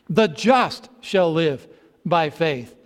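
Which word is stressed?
just. The stress is on the word just.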